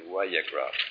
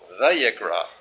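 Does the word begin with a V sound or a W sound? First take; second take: W sound; V sound. First: The word begins with a W sound. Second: The word begins with a V sound. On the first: The speaker calls it right. "but I think that probably better would be Vayikra" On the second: The speaker calls it wrong. "so they pronounce the wow as a V. ... So some will call it Vayikra"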